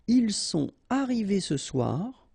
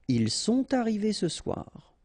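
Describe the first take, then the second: First: The words are kept separate without liaison. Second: The words are linked with a liaison sound.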